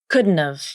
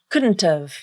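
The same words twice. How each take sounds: First: The T is a nasal flap between vowels. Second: The T is a full, clearly released T. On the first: "It involves a contraction, an H reduction, a vowel reduction, nasal plosion, and the nasal flap" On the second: "you pronounce the T as the true T"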